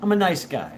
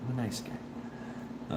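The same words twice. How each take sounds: First: Said in the usual way. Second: Soft, slow, nearly whispered; quiet, drawn-out trailing repeat; hushed aside. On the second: Real, not acted. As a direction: let it fade into a murmur to yourself. Joking self-defence, then repeated softly.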